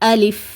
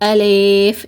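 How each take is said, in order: First: The second vowel sounds like i. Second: The second vowel sounds like e. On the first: The speaker calls it right. "இந்த மாதிரி உச்சரிங்க" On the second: The speaker calls it wrong. "இந்த மாதிரியும் உச்சரிக்கக்கூடாது"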